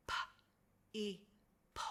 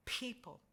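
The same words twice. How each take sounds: First: P-E-ple broken into separate sounds; sounding out. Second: Said in the usual way. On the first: Shown as a demonstration. Teacher sounding out P-E-ple with the class. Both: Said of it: "Let's say it together".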